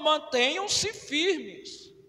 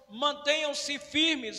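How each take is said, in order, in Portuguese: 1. É dita como um desafio animador. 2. É dita como um alerta cauteloso. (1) "eu também estou lançando o desafio aos irmãos" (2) "eu estou alertando os irmãos"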